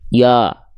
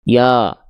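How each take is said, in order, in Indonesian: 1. Bunyi vokalnya tebal dan membulat, mulut cukup terbuka. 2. Bunyi vokalnya tebal dan membulat, mulut cukup terbuka.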